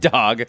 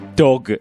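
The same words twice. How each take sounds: First: The word is said with ordinary English pronunciation. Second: The word is said with Japanese-style pronunciation. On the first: "We pronounce it dog" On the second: "if you wanted to say the word dog with Japanese pronunciation, it's also dog"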